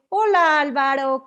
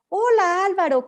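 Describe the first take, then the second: First: The greeting sounds loaded with irony. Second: The greeting sounds warm and sincere. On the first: It is unclear whether the speaker is really glad. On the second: The speaker is genuinely glad to see him.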